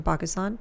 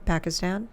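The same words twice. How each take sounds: First: Pakistan said with open ah vowels, pahk-is-tahn; native Pakistan. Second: Pakistan with flat a vowels, pack-uh-stan; anglicized Pakistan. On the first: Guest naming home country, native Pakistan pronunciation. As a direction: say Pakistan the native way, broad ah sounds. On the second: Guest correcting himself for the host, Americanized Pakistan. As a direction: say Pakistan the American way, short a sounds. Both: Shown as a demonstration. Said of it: "I guess it's Pakistan".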